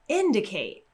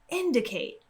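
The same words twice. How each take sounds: First: It is said excitedly with a bigger pitch drop. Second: It is said excitedly with a bigger pitch drop.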